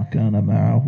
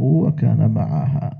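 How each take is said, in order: First: معه slowly, ending in "hu"; first variant reading. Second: معها slowly, ending in "haa"; second variant reading. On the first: Teacher showing both readings, معه slowly as "ma'ahu". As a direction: draw out وكان معه as "wa-kaana ma'ahu". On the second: Teacher showing both readings, معها slowly as "ma'ahaa". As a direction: draw out وكان معها as "wa-kaana ma'ahaa". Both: Shown as a demonstration.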